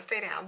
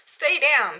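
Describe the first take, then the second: First: Softer, resigned repeat of the order; grumbling at her shirt to stay down, quiet and resigned; muttered repeat. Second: Sharp, louder order to the shirt; telling her slipping shirt to stay down, a loud firm order; mock command. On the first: Retold or imitated. Half to herself, dropping much softer. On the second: Scolding the shirt, firm and louder. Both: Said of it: "and it's just like".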